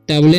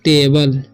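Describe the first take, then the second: First: It sounds like 'ta-bleh'. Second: It sounds like 'tay-bull'. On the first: The speaker calls it wrong. "टबले नहीं पढ़ लेना है" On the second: The speaker calls it right. "इसे पढ़ते हैं हम लोग टेबल"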